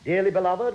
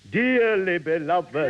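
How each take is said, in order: First: It is said in an ordinary voice. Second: It is said with more emotional feeling. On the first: "that doesn't sound right. Doesn't sound like a vicar" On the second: "I should give it a bit more feeling?"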